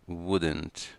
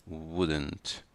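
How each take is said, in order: The two takes are said the same way.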